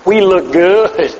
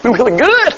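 First: Slow, stretched-out boast; drawn-out self-approval. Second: Livelier boast with a lift on GOOD; perky self-approval. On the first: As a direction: draw the words out, pleased with yourself. Mocking self-satisfied outward appearance. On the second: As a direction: say it brightly, GOOD swooping up. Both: Acted.

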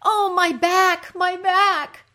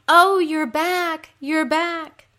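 First: High, slow, loud wail of pain; loud moan. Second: High, loud, drawn-out sympathy wail; echoed moan. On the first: Underworld queen suffering in her throne room, loud moan. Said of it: "Ereshkigal moans". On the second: Creatures sharing the queen's pain, echoed moan. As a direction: moan right back at her. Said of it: "the creatures moan". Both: Acted.

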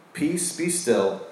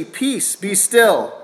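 First: Soft, slow "Peace, be still"; Jesus stilling the sea, hushed and slow; hushed calm command. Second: Rebuking the storm. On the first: Acted. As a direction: let it settle, slowly and gently. Quoting Jesus calming the sea. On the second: Retold or imitated. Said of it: "he rebuked the wind and said".

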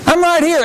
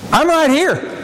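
First: Boastful. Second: Proud, pushed-out claim; boastful. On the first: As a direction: throw it out like a boast. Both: Shown as a demonstration. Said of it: "I said that almost in a boastful way".

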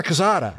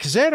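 First: Cazada with an open "ah" in the middle, "kuh-SAH-duh"; alternative pronunciation. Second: Cazada with a long "ay" in the middle, "kuh-ZAY-duh"; alternative pronunciation. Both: Shown as a demonstration. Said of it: "Is it Cazada or Cazada?".

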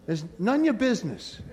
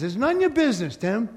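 First: Said in the usual way. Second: "none ya business" lifted higher, a light New York God voice; God voicing it. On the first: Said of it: "Like they say in New York". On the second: God telling Tim to mind his own business, higher and light. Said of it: "So God says".

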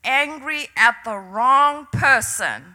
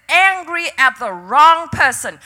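First: Slow, measured pronouncement, lightly voiced; understated voice of God; the Lord's voice. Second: Firm, emphatic divine rebuke, lightly voiced; preacher quoting God with force; the Lord's rebuke. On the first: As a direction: quote a divine word calmly and deliberately. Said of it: "I heard the Lord's voice say". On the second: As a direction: press the words home as God's correction. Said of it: "He said".

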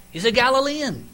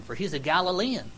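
First: Higher, louder, pointed accusation; emphatic accusation. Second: Said in the usual way. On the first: Acted. Bystander accusing Peter by his accent, loud and pointed. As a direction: nail him with "Galilean" said high and loud. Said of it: "You can tell what area you're from by your accent". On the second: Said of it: "Evidently there's accents back there".

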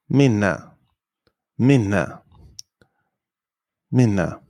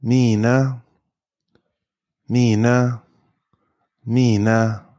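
First: "minna" with a short i, falling; short vowel. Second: "Mina" with a long, drawn-out ee; long vowel. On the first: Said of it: "short if there are two consonants". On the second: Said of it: "is usually pronounced long". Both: Shown as a demonstration.

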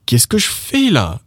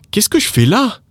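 First: "fais" high, falling away on "là"; higher pitch peak on "fais"; stress on FAIS. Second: "là" pushed up at the end; high question rising onto "là"; stress on LÀ. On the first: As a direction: hit "fais" and let "là" drop. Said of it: "when you emphasize the word faire". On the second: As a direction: put the emphasis on the final "là". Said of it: "if you emphasize the word là". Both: Shown as a demonstration.

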